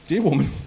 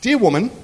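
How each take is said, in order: First: Said in the usual way. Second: Overly polite. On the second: Retold or imitated. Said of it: "he says really politely".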